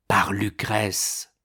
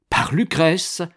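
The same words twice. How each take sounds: First: "par Lucrèce" slow, with no questioning rise; plain statement of revelation. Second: Higher, louder incredulous question; shocked echo. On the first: Revelation of the abductor. (« par Lucrèce » affirmé lentement) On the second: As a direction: repeat it as a rising, startled question. (question stupéfaite) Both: A narrator's reading.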